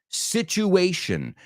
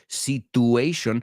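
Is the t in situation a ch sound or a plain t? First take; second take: ch sound; plain t. First: The t is said as a ch sound. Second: The t is said as a plain t sound. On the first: The speaker calls it right. "No, it's situation" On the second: The speaker calls it wrong. "Seguro que lo has dicho"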